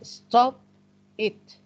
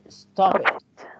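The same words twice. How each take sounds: First: The two words are said separately. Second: The two words run together as one. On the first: The speaker calls it wrong. "we don't say stop it" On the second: The speaker calls it right. "This is called linking"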